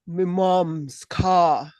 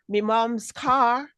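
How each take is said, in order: First: It is spoken with a lower, deeper voice. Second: It is spoken at the normal voice pitch. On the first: "if you went down a bit" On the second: "you said"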